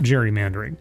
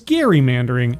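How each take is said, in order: First: It begins with a soft J sound. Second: It begins with a hard G sound. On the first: The speaker calls it wrong. "not Jerry" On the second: The speaker calls it right. "pronounced Gary"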